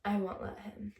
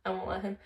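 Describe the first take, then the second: First: Quoted line with a rising end; quoting the girlfriend. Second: Flat, mocking echo of her words; mocking repeat. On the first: Retold or imitated. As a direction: give the girlfriend's words straight, lifting at the end. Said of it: "She's like". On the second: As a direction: parrot it back to ridicule it.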